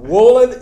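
The name is said with an American accent. "Wohland in American"

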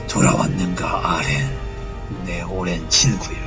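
It is said in a dramatic, atmospheric voice. The speaker calls it right.

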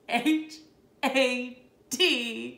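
It is said in a crying voice.

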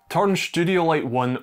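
It is said in a broad Glaswegian accent. "In my Glaswegian accent"

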